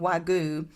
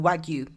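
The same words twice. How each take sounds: First: The word is said at a slower pace. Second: The word is said at a quick pace. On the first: The speaker calls it wrong. "I was saying Wagyu" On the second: The speaker calls it right. "saying it really quickly"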